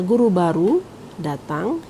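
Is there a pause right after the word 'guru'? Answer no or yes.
no. There is no pause right after 'guru'. A new teacher arrived. "yang datang adalah guru baru"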